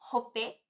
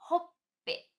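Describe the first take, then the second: First: The p follows with no hold before it. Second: A brief hold comes before the p. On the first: The speaker calls it wrong. "Sem segurar" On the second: The speaker calls it right. "E agora o certo, com o ti sai tsu"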